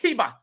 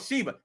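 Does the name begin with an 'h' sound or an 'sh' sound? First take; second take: h sound; sh sound. First: The name begins with an 'h' sound. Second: The name begins with an 'sh' sound. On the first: This imitates how someone else said it. "he called it Hiba" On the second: This is the speaker's own correction. "I tried to correct him. I was like, it's called Sheba"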